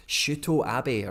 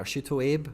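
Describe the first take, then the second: First: Abe said in two short syllables, AH-beh. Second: Abe said as one long syllable, AYB. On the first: Streamer trying out a Japanese player's name, Abe as AH-beh. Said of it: "taught me how to say it". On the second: Streamer offering the anglicised name, Abe as AYB. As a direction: say "Abe" to rhyme with babe. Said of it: "or Shuto Abe". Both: Shown as a demonstration.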